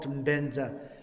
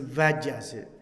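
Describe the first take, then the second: First: The word starts with a B sound. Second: The word starts with a V sound. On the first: This is the Tibetan way of saying it. "Benza is not Benza" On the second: This is the Indo-European way of saying it. "Vaja is like more kind of the our Indo-Europeans phonetic"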